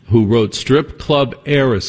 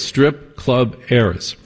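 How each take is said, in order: First: Said in the usual way. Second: "Strip Club Heiress" repeated slowly, each word weighted; slow down and lean on "Strip Club Heiress". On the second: Shown as a demonstration.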